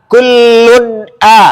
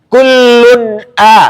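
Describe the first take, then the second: The two takes are said the same way.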